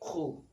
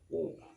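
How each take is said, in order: First: The q sound is hissed with friction. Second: The q sound is firm without any hiss. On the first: The speaker calls it wrong. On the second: The speaker calls it right.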